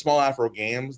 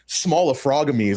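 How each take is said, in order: First: The name splits as small, afro, games. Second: The name splits as small, frogamies. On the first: The speaker calls it right. "When my name was Small Afro Games" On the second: The speaker calls it wrong. "That's a crazy way to pronounce it"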